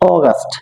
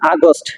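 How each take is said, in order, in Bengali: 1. প্রথম স্বরধ্বনিটি একটি গোলাকার 'o' ধ্বনি। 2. প্রথম স্বরধ্বনিটি একটি খোলা 'a' ধ্বনি। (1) "it will be অগাস্ট" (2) "it's not আগস্ট"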